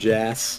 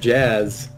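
First: The name ends in a hissing s sound. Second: The name ends in a buzzing z sound. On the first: The speaker calls it wrong. "not Jazz" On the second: The speaker calls it right. "It's Jazz"

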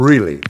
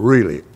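No difference in how they are said.

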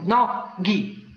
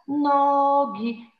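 First: Each syllable is cut off separately with pauses. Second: The syllables are joined with drawn-out vowels. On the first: The speaker calls it wrong. "nie dawać dzieciom poszatkowanych słów" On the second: The speaker calls it right. "wydłużam, ale nie szatkuję"

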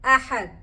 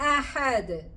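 First: The final d stops flat without any bounce. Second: The final d ends with a clear echoing bounce. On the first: The speaker calls it wrong. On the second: The speaker calls it right.

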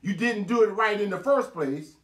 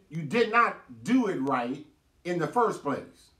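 First: It is said at a quicker pace. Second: It is said at a slower pace.

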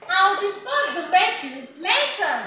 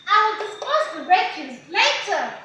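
The two takes are said the same way.

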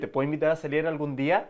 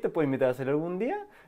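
First: The voice falls at the end, sounding firm. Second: The voice rises at the end, sounding unsure. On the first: The asker sounds confident and masculine. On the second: The asker sounds doubtful.

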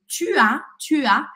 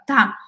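First: Both words are said in full, vowels kept. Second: The u is dropped, giving one syllable. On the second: "eu acabo comendo esse u e fico tá"

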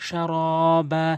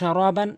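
First: The word ends with a long 'a' sound. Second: The word ends with an 'an' sound. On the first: The reader stops at this word. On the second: The reading continues without stopping.

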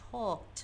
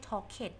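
First: The ending is a short t sound. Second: The ending is an extra ed syllable. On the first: The speaker calls it right. "ออกเสียงเป็นตัว t" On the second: The speaker calls it wrong. "ไม่ใช่"

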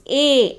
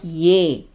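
First: It begins with a plain vowel, no y sound. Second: It begins with an added y sound. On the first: The speaker calls it right. "It is A" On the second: The speaker calls it wrong. "Don't say Ya for A"

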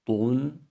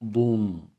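First: The syllable is pronounced thin and light. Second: The syllable is pronounced thick and heavy. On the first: The speaker calls it right. "ince okumaya gayret edelim" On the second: The speaker calls it wrong. "şeklinde kalın değil"

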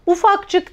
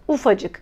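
First: A k sound is heard before the c. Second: No k sound is heard before the c. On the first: The speaker calls it wrong. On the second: The speaker calls it right.

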